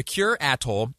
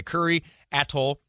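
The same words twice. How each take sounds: First: "Kure" as one syllable, like "cure"; mistaken pronunciation. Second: "Kure" in two syllables, "KUR-ee", then "Atoll"; corrected pronunciation. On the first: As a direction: say "Kure" to rhyme with "pure", then "Atoll". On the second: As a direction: say "Kure" to rhyme with "hurry". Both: Shown as a demonstration. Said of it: "has me, uh, straightened out here".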